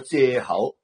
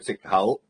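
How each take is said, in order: First: The first syllable is pronounced 'ze'. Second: The first syllable is pronounced 'zik'. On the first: This is the northern reading. The speaker calls it wrong. "北方人叫借口" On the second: This is the Cantonese reading. The speaker calls it right. "广东人咧叫直口"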